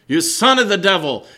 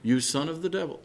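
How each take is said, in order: First: It is said loudly and intensely. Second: It is said quietly and meekly. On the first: The speaker calls it right. "I'm sure he said it just like that or even more intensely" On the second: The speaker calls it wrong. "now do you think he said it like this?"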